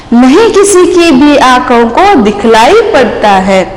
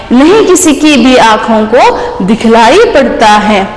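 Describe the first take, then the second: No difference in how they are said.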